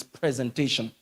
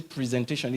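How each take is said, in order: First: "presentation" with a short "prez" at the start; correct pronunciation. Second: "presentation" said with a long first "pree"; mispronunciation. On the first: Coach correcting people's diction, "presentation" as PREZ-entation. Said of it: "It's presentation". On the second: Coach quoting how people say it wrongly, "presentation" as PREE-zentation. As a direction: say "presentation" starting PREE-zen. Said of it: "I hear people say presentation". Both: Shown as a demonstration.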